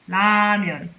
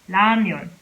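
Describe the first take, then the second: The two takes are said the same way.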